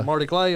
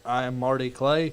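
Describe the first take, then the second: First: It is said in a relaxed, natural voice. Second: It is said in a stiff, robotic voice. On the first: It sounds real and natural. The speaker calls it right. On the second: It does not sound real. The speaker calls it wrong.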